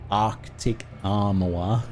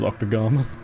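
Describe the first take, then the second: First: Each word is said carefully and clearly. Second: The words are run together into one word. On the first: "really carefully Arctic armor" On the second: "kind of just comes out as Octogama"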